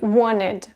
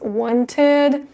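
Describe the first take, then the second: First: The T sound after the N is dropped. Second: The T sound after the N is pronounced. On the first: "but normally it will be wanted" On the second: "this T actually is optional. You can say it as wanted"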